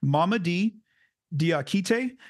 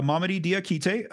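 First: Name said slowly, part by part. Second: Whole name run together quicker; faster. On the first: Podcaster carefully trying a new player's name, very slowly. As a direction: sound out Mamadi Diakite with a pause between names. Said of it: "say his name very slowly at first". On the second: Podcaster repeating the new player's name, faster. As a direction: say Mamadi Diakite in one smooth go. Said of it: "then I'll try to get faster". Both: Shown as a demonstration.

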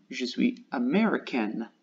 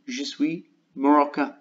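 First: Américaine said amɛʀikan, falling at the end; corrected word américaine. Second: Marocain said moʀɔka, the wrong word for américaine; retold slip marocain. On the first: Shown as a demonstration. Learner corrects the slip for viewers, américaine amɛʀikan. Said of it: "Mais je voudrais dire". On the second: Learner retells a slip to viewers, marocain said moʀɔka. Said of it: "je mange mon mot et j'ai dit".

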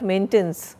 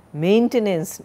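First: MAINTENANCE with the middle E dropped, MAINT-nance; wrong maintenance. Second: MAINTENANCE with its middle E sounded, MAIN-te-nance; correct maintenance. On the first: Teacher mimicking students' slip, maintenance squeezed to two syllables. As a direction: swallow the middle vowel of maintenance. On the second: Teacher showing students the spelling of maintenance, sounded in three syllables. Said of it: "it's not maintenance". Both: Shown as a demonstration.

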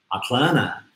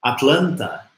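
First: "Atlanta" as "Atlanna"; T mudo. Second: "Atlanta" with the final T sounded after N; pronúncia com T. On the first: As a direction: drop the T after N in "Atlanta". ("Atlanta" sem o último T, "Atlana") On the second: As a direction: say "Atlanta" fully, ending in "ta". ("Atlanta" com T, terminando em "ta") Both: Shown as a demonstration. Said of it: "o T some logo após o N".

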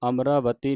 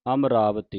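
First: ਅਮਰਾਵਤੀ broken into separate words; the wrong way: ਅਮਰਾਵਤੀ split apart; split wrongly. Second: ਅਮਰਾਵਤੀ said as one joined word; joined amravati. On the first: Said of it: "ਇਹਨੂੰ ਅਮਰਾਵਤੀ ਨਹੀਂ ਬੋਲਣਾ". (ਵੱਖਰਾ ਵੱਖਰਾ ਗਲਤ ਉਚਾਰਨ) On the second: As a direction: run ਅਮਰਾਵਤੀ together without a break. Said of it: "ਅਮਰਾਵਤੀ ਇਕੱਠਾ ਪਾਠ ਹੈ". (ਇਕੱਠਾ ਪਾਠ ਅਮਰਾਵਤੀ) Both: Shown as a demonstration.

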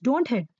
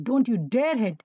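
First: Said in the usual way. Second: "don't you dare hit" leaning on "dare"; firm stress on "dare" in "don't you dare hit"; emphatic prohibition. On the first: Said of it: "say just don't hit". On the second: Shown as a demonstration. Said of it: "say with so much emphasis".

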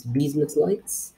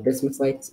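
First: Bismuth Lights with a long ee, BEEZ-muss; corrected pronunciation. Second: Bismuth Lights with a short i, BIZ-muss; Substitute's pronunciation. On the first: Shown as a demonstration. Gamer correcting the item's name, Bismuth Lights slowly as BEEZ-muss. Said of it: "well, Substitute calls them". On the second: Retold or imitated. Gamer quoting Substitute's name for the item, Bismuth Lights as BIZ-muss. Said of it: "Substitute calls them".

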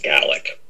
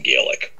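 First: Gaelic said GAL-ik, first vowel short as in Galway; Scottish pronunciation. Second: Gaelic said GAY-lik, long first vowel; English and American pronunciation. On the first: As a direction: say Gaelic to rhyme with "phallic". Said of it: "it's pronounced Gaelic". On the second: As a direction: start Gaelic like the word "gay". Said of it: "they pronounce it Gaelic". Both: Shown as a demonstration.

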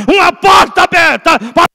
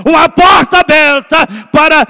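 No difference in how they are said.

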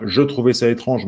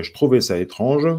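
First: "je trouvais" with a full "je"; full form, no elision. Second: "je trouvais" run together as "j'trouvais"; elided form. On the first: Teacher showing what is not sung, "je" fully sounded. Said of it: "Ce n'est pas". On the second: Teacher showing the elision, "je trouvais" as "j'trouvais". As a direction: drop the schwa in "je", straight into "trouvais". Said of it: "il y a encore une élision". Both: Shown as a demonstration.

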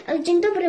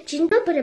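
First: A hint of a hoarse wolf posing as granny, a bit louder. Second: Said in the usual way. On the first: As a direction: lightly put on a rough granny voice. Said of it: "usłyszała ochrypły głos". (lekko zachrypnięty głos wilka udającego babcię) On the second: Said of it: "powiedziała dziewczynka".

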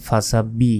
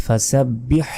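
First: ফাসাব্বি with no final h; the common mistake, ফাসাব্বি without হ; wrong pronunciation. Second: ফাসাব্বিহ ending in a heavy breathy throat h; ফাসাব্বিহ with the big ha clearly sounded; correct pronunciation. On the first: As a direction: drop the হ at the end of ফাসাব্বি. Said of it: "আমরা অনেকে ভুল করি". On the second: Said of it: "বলতে হবে". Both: Shown as a demonstration.

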